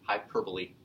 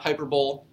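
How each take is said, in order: First: The second syllable 'per' is stressed. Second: The second syllable 'per' is not stressed. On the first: The speaker calls it right. "Emphasis is on the per" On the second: The speaker calls it wrong. "not hyperbole. Don't call it hyperbole"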